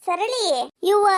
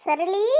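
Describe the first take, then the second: First: ಸರಳಿ sung out on a rising pitch; calling out. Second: Said in the usual way. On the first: Acted. Calling the neighbour again, louder.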